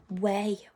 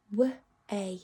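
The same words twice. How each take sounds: First: Said in the usual way. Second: "W-A" as two separate phonic sounds; "W-A" segmented for blending, not letter names; sounding out. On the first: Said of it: "blend those sounds together". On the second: Shown as a demonstration. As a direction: say "W-A" sound by sound, with a gap. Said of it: "he can only speak in sounds".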